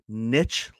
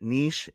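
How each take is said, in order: First: It is said like pitch, with a short vowel. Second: It is said like sheesh, with a long vowel. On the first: "another pronunciation, niche, like pitch" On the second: "just like the way I called it, niche. It's like sheesh"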